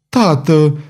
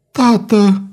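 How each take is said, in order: First: A pleading call, pitch rising; heartbroken cry. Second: "tată" cried out much higher; heartrending cry. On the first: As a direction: call to him in pain. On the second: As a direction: wail "tată" at the top of her voice. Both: A narrator's reading. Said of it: "strigă Violeta cu glas sfâșietor".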